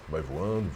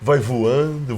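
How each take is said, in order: First: It is said flatly, without enthusiasm. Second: It is said with lively enthusiasm.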